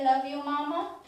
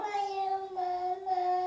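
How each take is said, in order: First: Said in the usual way. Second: Put-on higher, slow, drawn-out model for a toddler to copy; slow modelled phrase. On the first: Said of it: "Can you say". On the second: Shown as a demonstration. Mother modelling words slowly for her toddler to copy. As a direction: stretch each word so he can copy it. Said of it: "Can you say, "Love you, Mama"?".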